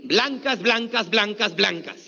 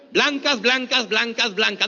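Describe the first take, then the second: First: Said in the usual way. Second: Chanted, call it out louder. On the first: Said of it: "Ahora di". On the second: Shown as a demonstration. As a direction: chant the word with more push. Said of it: "Más fuerte, venga".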